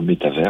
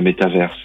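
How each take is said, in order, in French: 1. Le mot finit par un 'vers' à la française. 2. Le mot finit par un 'verse' à l'anglaise. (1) "je préfère dire métavers" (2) "Le mot d'origine, il est anglais"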